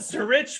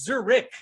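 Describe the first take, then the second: First: The word does not end like Ulrich. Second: The word ends like the name Ulrich. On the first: The speaker calls it wrong. "It's not Zurich" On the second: The speaker calls it right. "Just like Ulrich"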